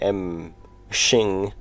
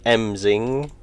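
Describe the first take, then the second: First: The middle consonant is an 'sh' sound. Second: The middle consonant is a plain 'z' sound. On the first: "There's an H in there though, so maybe it's like M Shing" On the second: "Did I pronounce that right?"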